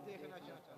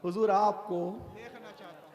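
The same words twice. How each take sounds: First: Hushed whisper trailing off; whispered longing. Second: Said in the usual way. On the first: Acted. Timid youth whispers his longing at the door. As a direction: breathe the words as a timid whisper. Youth too shy to see Prophet.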